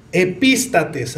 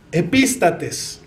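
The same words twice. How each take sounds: First: "Epístates" muy lento, sílaba fuerte en la A; pronunciación lenta. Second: "Epístates" lento, acento en la A; pronunciación lenta. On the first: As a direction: marca el acento de "Epístates". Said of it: "acento en la A". (repite "Epístates" despacio, con acento marcado) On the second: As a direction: silabea "Epístates" despacio. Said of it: "Así como se escucha". (pronuncia "Epístates" con acento marcado) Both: Shown as a demonstration.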